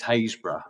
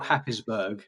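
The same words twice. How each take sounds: First: Happisburgh said locally as Haysborough; local pronunciation. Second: Happisburgh said as it is written; spelling pronunciation. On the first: Correcting the spelt form for the hosts, local pronunciation. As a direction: say Haysborough, two beats, HAYZ-bruh. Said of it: "but it's pronounced Haysborough". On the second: Explaining a local place name to the hosts, spelling pronunciation. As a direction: sound out Happisburgh by its spelling, Hap-pis-burg. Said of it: "spelt Happisburgh". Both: Shown as a demonstration.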